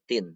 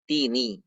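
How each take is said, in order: First: The word ends on a bare n consonant. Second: The word ends with an added i vowel. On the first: This is the original form before linking. "aslinya gini" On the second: This is the form used when linking to the next word. "kita bunyi menjadi kasroh"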